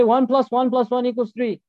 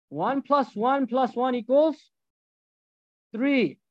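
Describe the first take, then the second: First: Firm louder version. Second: Dumbed-down math. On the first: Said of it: "You go to him and you say". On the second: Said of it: "You're gonna do dumb math". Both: Shown as a demonstration.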